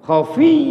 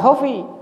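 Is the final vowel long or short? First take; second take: long; short. First: The final vowel is held long and stressed. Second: The final vowel is short and unstressed. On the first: The speaker calls it right. "di sini khofi harus begitu" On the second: The speaker calls it wrong. "bukan khofi"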